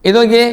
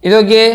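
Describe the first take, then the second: Both takes have the same delivery.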